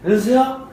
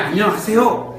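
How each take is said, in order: First: The greeting is said carelessly and indistinctly. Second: The greeting is said clearly and deliberately.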